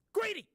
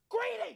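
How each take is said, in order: First: High, loud teasing accusation; mock scold. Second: Playful outraged yelp; mock scold. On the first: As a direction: call them out with playful outrage. Mock scolding the snack dish.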